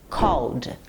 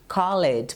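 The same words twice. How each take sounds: First: The ending is a plain d with no extra syllable. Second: The -ed ending is sounded as a separate syllable. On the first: The speaker calls it right. "para você pronunciar no passado, ela vai ficar assim" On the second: The speaker calls it wrong. "Eu escuto muitos alunos pronunciarem assim"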